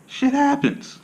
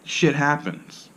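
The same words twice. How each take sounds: First: Playful high-pitched shrug; squeaky high shrug. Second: Drawn-out shit happens, stressing shit with a falling tune; unhurried resigned shrug; slow, deliberate shrug. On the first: Acted. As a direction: jump way higher for a comic shit happens. Comic shrug about eye mishaps. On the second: Shown as a demonstration. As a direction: say shit happens very slowly and flatly.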